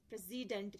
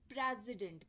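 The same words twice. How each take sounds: First: The stress is on a later syllable. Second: The stress is on the first syllable.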